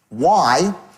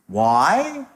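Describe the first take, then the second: First: It is said as a falling statement. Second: It is said as a rising question.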